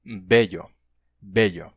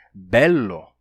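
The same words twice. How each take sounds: First: Bello with the ll said like Portuguese lh; Spanish bello, lh sound; palatal bello. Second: Bello with a long, strong double l, slow; bello, ll held long. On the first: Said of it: "esse L se palatalizou e ficou". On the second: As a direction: lean on the ll of bello. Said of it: "um L duplo". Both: Shown as a demonstration.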